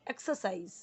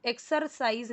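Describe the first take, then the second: First: एक्सरसाइज said eksəsaiz, softer, no r; r silent. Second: एक्सरसाइज with a clear r; wrong pronunciation, r sounded. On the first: Teacher correcting students, एक्सरसाइज with silent r. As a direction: drop the r in एक्सरसाइज. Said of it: "ये आर silent में जाना चाहिए". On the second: Teacher showing the mistake, एक्सरसाइज with r sounded. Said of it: "एक्सरसाइज नहीं". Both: Shown as a demonstration.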